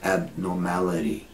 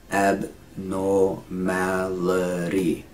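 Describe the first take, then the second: First: Said in the usual way. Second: "Abnormality" very slow, separated syllables. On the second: Shown as a demonstration. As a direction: break "Abnormality" into long syllables. Teacher slows word into syllables.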